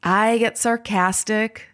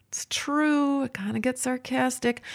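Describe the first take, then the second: First: Said in the usual way. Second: Soft, higher-pitched admission; confessing aside. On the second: Real, not acted. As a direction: drop to a small, high, quiet aside. Confessing aside repeating her admission.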